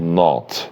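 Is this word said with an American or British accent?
British. The vowel is a rounded British o sound.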